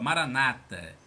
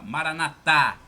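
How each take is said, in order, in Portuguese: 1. A tônica está na penúltima sílaba. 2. A tônica está na última sílaba. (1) "Os protestantes acentuam a penúltima sílaba" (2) "Os católicos acentuam a última, dão a tônica na última"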